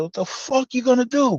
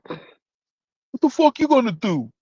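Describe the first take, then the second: First: Higher challenge thrown at a rival; mock angry challenge. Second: Higher, slow drawn-out threat; slow mock challenge. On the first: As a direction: square up and throw it back, pitched up. Retold chow hall confrontation. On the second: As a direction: lean on each word, slowly, as a taunt. Repeats the confrontation line.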